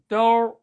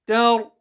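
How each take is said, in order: First: The t is heavy, with a full mouth. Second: The t is light, with a thin mouth. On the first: The speaker calls it wrong. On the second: The speaker calls it right.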